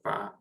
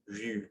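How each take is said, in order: First: The vowel is an open a sound. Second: The vowel is a front rounded u sound. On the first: The speaker calls it wrong. "or va" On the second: The speaker calls it right. "we say vu"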